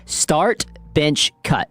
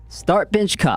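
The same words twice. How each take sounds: First: It is said slowly, word by word. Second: It is said quickly, run together.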